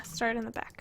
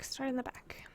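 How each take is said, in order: First: Said in the usual way. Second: Whispered to herself; whispering. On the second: Real, not acted. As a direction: breathe it under your breath. Repeats it to herself.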